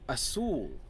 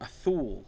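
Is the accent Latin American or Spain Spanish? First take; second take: Latin American; Spain. First: It has a Latin American 's' sound. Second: It has Spain's lisped 'th' sound.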